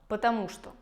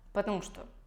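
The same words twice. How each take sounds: First: Every syllable is pronounced in full. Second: Syllables are squeezed into a shortened form.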